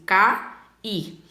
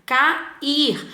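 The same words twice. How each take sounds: First: "cair" said slowly as ca-ir, two separate syllables; syllables split apart. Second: Said in the usual way. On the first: Shown as a demonstration. Teacher to students, showing the vowels split: slow "cair" as ca-ir. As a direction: stretch "cair" into ca and ir, pausing between them. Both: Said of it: "eu pronuncio separados".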